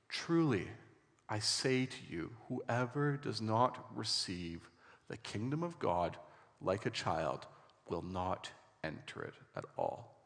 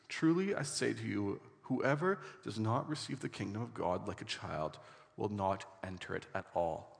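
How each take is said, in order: First: It is read slowly. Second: It is read at normal speed.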